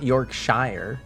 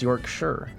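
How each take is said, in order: First: The ending is said like the full word 'shire'. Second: The ending is said like the word 'sure'. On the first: The speaker calls it wrong. "it's not Yorkshire" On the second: The speaker calls it right. "it's just like sure"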